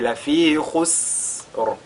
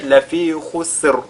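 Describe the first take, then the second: First: The s sound is drawn out with breath. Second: The s sound is cut off abruptly. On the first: The speaker calls it right. "allonger la prononciation" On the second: The speaker calls it wrong. "là ce ne sera pas correct"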